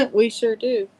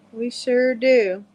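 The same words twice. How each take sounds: First: Laughing agreement. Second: Very slow, stretched southern drawl. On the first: Real, not acted. Agreeing with a friend about southern talk, laughing. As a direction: chuckle through the words, amused. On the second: Shown as a demonstration. Showing a friend how southerners talk, slow southern drawl. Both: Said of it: "We all talk like this down south".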